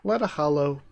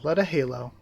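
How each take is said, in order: First: The second word sounds like hollow. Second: The second word sounds like halo. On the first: The speaker calls it wrong. "people would think it's hollow" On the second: The speaker calls it right. "So it is um, Leda Halo"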